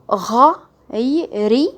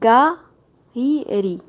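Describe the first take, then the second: First: The word begins with a throaty French r. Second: The word begins with a hard g sound. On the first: The speaker calls it right. "exactement l'équivalent du R du français" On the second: The speaker calls it wrong. "qui vous pousse à mal prononcer la lettre"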